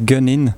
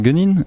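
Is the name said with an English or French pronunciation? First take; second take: English; French. First: The name is said with an English pronunciation. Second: The name is said with a French pronunciation. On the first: "Si on prononce un peu plus à l'anglaise" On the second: "si vous retirez le G à la fin, ça fait Gunning"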